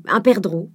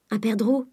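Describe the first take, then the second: First: Airy item at the end of a list; breezy, confident ordering; casual suggestion. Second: Private, puzzled repeat; wondering to herself. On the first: Acted. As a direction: toss it out as a small request. Charles casually orders a partridge. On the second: A narrator's reading. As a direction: think it aloud with a rising end. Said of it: "se disait Eugénie".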